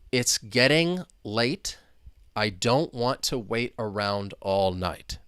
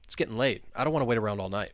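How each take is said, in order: First: Each word is said slowly and separately. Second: The words run together quickly. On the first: "I'll say each individual word" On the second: "much faster"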